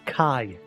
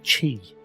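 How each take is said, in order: First: The name starts with a 'k' sound. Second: The name starts with a 'ch' sound. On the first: The speaker calls it wrong. "the voice dialogue was pronouncing it as Kai" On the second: The speaker calls it right. "That's clearly Chi"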